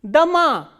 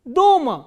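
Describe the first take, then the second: First: The stress is on the second syllable. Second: The stress is on the first syllable. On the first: It means houses. "this O is unstressed while this A is stressed" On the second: It means at home. "In the first word, the vowel O is stressed"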